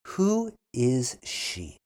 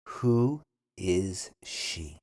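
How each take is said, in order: First: Who is she? said slowly, Who stressed; slow model. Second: Who is she? even slower, lower; slow repeat. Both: Shown as a demonstration. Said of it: "then repeat slowly".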